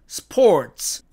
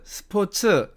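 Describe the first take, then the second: First: It is said with English pronunciation. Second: It is said with Korean loanword pronunciation. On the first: "영어식으로 읽으면" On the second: "외래어로 이 말을 쓸 때에는"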